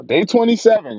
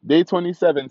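First: Hyped anime exclamation; excited shout. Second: Excited anime character yell; anime hype shout. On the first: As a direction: yell it out, pumped. Excited count, anime style. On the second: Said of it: "Like my anime folks". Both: Pretend.

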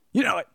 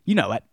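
First: Pitched up and playful; teasing repeat. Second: Said in the usual way. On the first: Shown as a demonstration. Repeating it to Alex Haley, higher and teasing. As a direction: tease the author knowingly.

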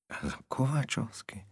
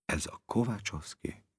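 First: Higher, softer, bewildered repeat; "Ez a Kovácsovszki?" repeated higher and softer, wondering; uncertain mumble, rising. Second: Softer, unsure, half to himself; "Ez a Kovácsovszki?" mumbled softly and unsure; uncertain mumble. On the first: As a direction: ask it again in quiet disbelief. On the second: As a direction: mumble the question into your chest. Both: A narrator's reading. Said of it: "bizonytalan hangon motyogta maga elé".

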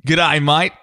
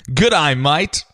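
First: Australian accent, rising g'day. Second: Australian accent again, rising g'day; a second Australian accent try. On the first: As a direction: greet like an Aussie with an Australian accent. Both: Shown as a demonstration. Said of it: "You wanna hear it?".

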